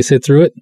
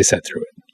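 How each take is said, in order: First: "sit" said with a short "i" as in "bit" in "sit through it". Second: "set" said with an "e" as in "bet" in "set through it"; regional set. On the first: Filmmaker contrasting his own speech with the reviewer's region, saying "sit" plainly. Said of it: "I would say sit through it". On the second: Filmmaker showing how the reviewer's region says it, a soft regional "set". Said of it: "They would say set through it". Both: Shown as a demonstration.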